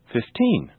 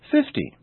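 First: Put-on "fifteen" stressed on TEEN without dragging; natural final stress. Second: "fifty" stressed on a high FIF, short ending; natural first-syllable stress. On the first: Teacher now saying them naturally, "fifteen" stressed on TEEN. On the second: Teacher now saying them naturally, "fifty" stressed on FIF. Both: Shown as a demonstration. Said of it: "Now I'll say them naturally".

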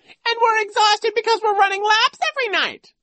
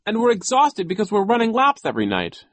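First: Piercingly high, loud mimicry; Nero squealing. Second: High, loud protest; Klaus crying out. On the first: Vice principal parrots the boy's complaint, squealing mockery. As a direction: squeal it back in mocking falsetto. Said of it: "he squealed". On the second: Exhausted boy explains to the vice principal, crying out. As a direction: cry out the complaint in exasperation. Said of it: "Klaus cried". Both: A narrator's reading.

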